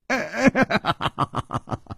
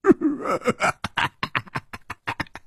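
First: High breathy bitter laugh; 凄惨的苦笑. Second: High breathy silly giggle; a dim-witted brute tittering to himself; 傻乎乎的痴笑; foolish giggle. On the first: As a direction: laugh in defeat, with no joy in it. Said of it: "楚留香惨笑着说". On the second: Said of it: "那大汉竟然痴痴地笑起来". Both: Acted.

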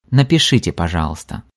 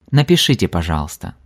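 No difference in how they are said.

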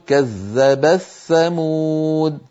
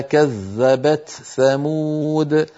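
First: Slow recited كذبت ثمود with the ت of كذبت merged into ث; merged reading, idgham. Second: Slow recited كذبت ثمود with the ت of كذبت kept clear before ث; Hafs reading, izhar. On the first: Teacher reciting كذبت ثمود with the تاء merged. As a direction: chant كذبت ثمود slowly, تاء assimilated into the ثاء. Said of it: "ومنهم من يدغمها فيقول". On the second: Teacher reciting كذبت ثمود slowly, تاء kept apart. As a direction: chant كذبت ثمود slowly, ت and ث both pronounced. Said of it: "كقوله تعالى". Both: Shown as a demonstration.

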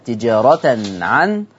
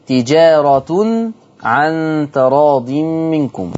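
First: تجارة recited slowly as tijaratan, with a fatha on the final ta; slow recitation of تجارة ending in tijarata; Hafs reading with fatha. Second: تجارة recited slowly as tijaratun, with a clear u on the final ta; slow Quranic recitation of تجارة ending in tijaratu; Warsh reading with damma. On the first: Teacher recites the Hafs reading for contrast, slow. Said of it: "حفص قرأ بنصب التاء". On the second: Teacher recites the Warsh reading for students, slow and drawn. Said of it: "ورش عن نافع قرأ بضم التاء". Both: Shown as a demonstration.

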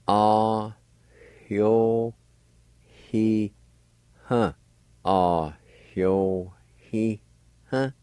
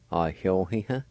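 First: "Ah, hyo, he, huh" slowly in separate syllables, light H before the y; faint H sound. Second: Said in the usual way. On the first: Shown as a demonstration. Teacher showing learners "hyo" with a faint H, syllable by syllable. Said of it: "another faint H sound". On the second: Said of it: "Gradually speed up your pronunciation".

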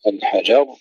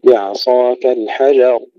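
First: الحجر with the j shoved and stressed; wrongly pushed jim. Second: الحجر with an easy j and heavy final r; slow recitation of الحجر without pushing the ج; unforced jim. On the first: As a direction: mistaken recitation of الحجر, punching the ج. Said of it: "لا نقول". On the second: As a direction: keep ج light and ر full in الحجر. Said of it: "لا ندفع الجيم". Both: Shown as a demonstration.

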